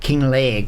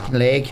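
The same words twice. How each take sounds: First: The name is said in a Scottish accent. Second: The name is said in his usual accent. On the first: "imagine a Scottish person saying it" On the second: "I'm not really sure on the pronunciation of it"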